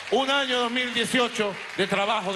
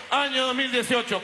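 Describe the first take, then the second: First: Raised, building orator's voice; ranting dictator speech. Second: High, ringing rally cry; ranting dictator speech. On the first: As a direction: push the voice up, rallying. Building speech toward closing vivas. (discurso enardecido) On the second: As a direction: proclaim it to the crowd. Rally cries ending a speech. (grito de mitin) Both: Real, not acted.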